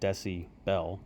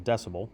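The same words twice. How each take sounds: First: The word is split into deci plus bel. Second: The word is said as one run-together unit. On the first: The speaker calls it wrong. "we don't say decibel because it just sounds goofy" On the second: The speaker calls it right. "so we call it a decibel"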